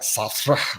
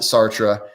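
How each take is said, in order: First: The name is said with a French pronunciation. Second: The name is said with an American pronunciation. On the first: The speaker calls it right. "I know it's supposed to be pronounced like Sartre" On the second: The speaker calls it wrong. "I pronounce it Sartre, but I'm Midwestern American"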